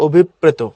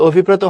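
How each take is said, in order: First: "অভিপ্রেত" as obhip-preto; সঠিক উচ্চারণ. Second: "অভিপ্রেত" as obhi-preto, single p; ভুল উচ্চারণ. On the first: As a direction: double the p in "অভিপ্রেত". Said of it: "হয় অভিপ্রেত". ("অভিপ্রেত"-এ প দ্বিত্ব করে) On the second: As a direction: keep one p in "অভিপ্রেত". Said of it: "অভিপ্রেত হয় না". ("অভিপ্রেত"-এ একটা প) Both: Shown as a demonstration.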